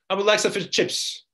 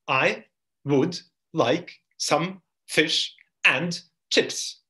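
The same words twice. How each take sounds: First: The small words are reduced and run together. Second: Each small word is said fully and separately. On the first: The speaker calls it right. "But in spoken language, it's going to be" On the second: The speaker calls it wrong. "if you take this phrase in isolation... But no one says this like this"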